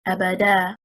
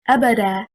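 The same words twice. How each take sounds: First: The stress is on the third syllable. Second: The stress is on the first syllable. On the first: The speaker calls it wrong. "If we stress on the third حركة, حركة الدال" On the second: The speaker calls it right. "Stressing on the first حركة, which is حركة الهمزة"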